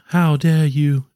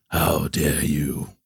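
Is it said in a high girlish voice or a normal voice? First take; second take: high girlish; normal. First: It is said in a high, rising girl voice. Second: It is said in his normal, lower voice.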